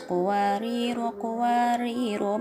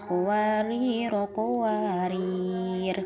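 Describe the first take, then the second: First: It runs on past the second word, ending short. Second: It stops on the second word with no vowel. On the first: "diwasolkan dengan qawariro ayat enam belas... sama-sama dibaca pendek" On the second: "berhenti pada qawariro ayat enam belas dan dibaca sukun"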